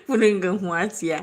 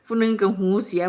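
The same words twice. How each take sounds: First: "หัวเสีย" read as hua with a short rising vowel, the wrong word; reading "หัวเสีย" aloud as if it said "hua"; misread word. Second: "หูเสีย" said with a clear long hu, the right word; corrected reading. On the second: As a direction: fix the misread, saying "หูเสีย" carefully. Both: Shown as a demonstration. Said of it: "บ่แม่นหัวเสีย".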